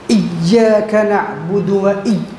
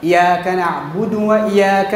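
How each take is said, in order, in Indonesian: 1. Bunyi y yang digandakan ditekan sangat kuat. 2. Bunyi y hanya tunggal, tidak digandakan. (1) "tak boleh tekan kuat sangat" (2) "tanpa tasydid"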